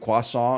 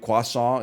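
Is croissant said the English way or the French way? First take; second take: French; French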